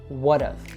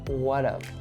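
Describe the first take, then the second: First: The h is dropped and the t is flapped. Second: The h is dropped and the t is flapped.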